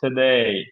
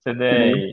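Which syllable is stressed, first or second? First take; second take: second; second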